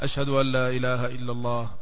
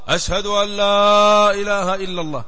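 First: It is said in a low, quiet voice. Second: It is said in a raised, loud voice. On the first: Only the caller and those near can hear it. "بعد ذكرهما بصوت منخفض" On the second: Even people far away can hear it. "ثم يرفع صوته مرة أخرى"

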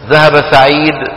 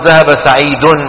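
First: The last word ends with no vowel. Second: The last word ends with a full vowel. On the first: The speaker calls it right. "شو بيقولوا؟" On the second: The speaker calls it wrong. "ما بيعملوا هيك"

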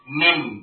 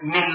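First: The final m is held nasally for two beats. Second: The final m is short, without a nasal hold. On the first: The speaker calls it right. "tapi mim, mil, mim, gunnah dua harokat" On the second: The speaker calls it wrong. "bukan mim lagi"

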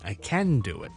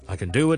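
First: The word 'can' is stressed with a full vowel. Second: The word 'can' is weak and reduced. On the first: "如果我想強調呢個字嘅時候呢，就係呢一個咁嘅音" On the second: "平時C A N 咧唔系好着重嘅時候，我哋讀卷卷卷"

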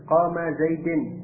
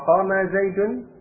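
First: The last word ends with an i sound. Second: The last word ends with a u sound. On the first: The speaker calls it wrong. "dengan kasrah. Qama Zaidin, khata'an, keliru" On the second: The speaker calls it right. "dengan bomah Zaidun, shawabun, benar"

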